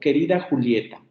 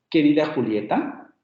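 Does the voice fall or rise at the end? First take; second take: fall; rise. First: The voice falls at the end. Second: The voice rises at the end. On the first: It is a statement or a greeting. "haciendo una afirmación o un vocativo" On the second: It is a question. "si yo esto lo quiero transformar en pregunta, entonces tengo que cambiar la inflexión final"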